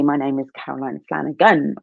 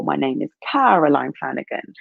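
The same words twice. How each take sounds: First: Weight on "Flanagan", falling at the end; stress on Flanagan. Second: "Caroline" gets the weight, "Flanagan" lighter; stress on Caroline. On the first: Trying emphasis on "Flanagan" while introducing herself. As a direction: lean into "Flanagan". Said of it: "I could say". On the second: Trying emphasis on "Caroline" while introducing herself. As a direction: punch "Caroline". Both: Shown as a demonstration.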